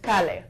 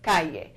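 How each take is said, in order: First: The double L sounds like an English L. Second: The double L sounds like an English Y. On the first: The speaker calls it wrong. "We may be inclined to think that this says calle" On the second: The speaker calls it right. "but actually in Spanish it's pronounced calle"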